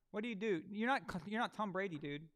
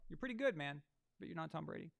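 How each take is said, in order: First: Scolding. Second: Softened. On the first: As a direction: snap at the quarterback. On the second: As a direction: back down and soften it. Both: Real, not acted.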